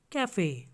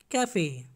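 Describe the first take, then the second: No difference in how they are said.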